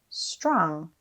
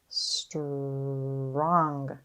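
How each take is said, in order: First: The sounds are blended quickly into one word. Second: Each sound is drawn out slowly and separately. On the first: "Say it fast" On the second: "Tap and stretch"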